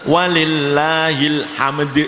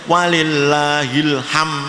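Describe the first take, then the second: First: The final d sound is clearly pronounced. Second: The final d sound is dropped. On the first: The speaker calls it right. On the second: The speaker calls it wrong. "tidak boleh"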